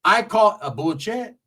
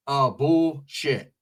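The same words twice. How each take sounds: First: "bullshit" said like "bull-chet", rising; "bullshit" as a drawn-out, rising "bull-chet"; altered pronunciation. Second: "bullshit" very slow, split as "bull... shit"; "bullshit" spelled out slowly in two falling beats; slow enunciation. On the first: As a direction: say "bullshit" slowly with a ch sound, ending up. Repeats the word, respelling its sound. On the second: Second take, slower and broken up. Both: Retold or imitated.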